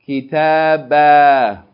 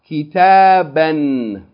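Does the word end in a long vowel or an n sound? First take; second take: long vowel; n sound. First: The word ends with a long vowel, no n. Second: The word ends with a short vowel plus n. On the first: The reading stops on this word. "and then pause form" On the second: The reading continues on to the next word. "we're going to read it in continual form"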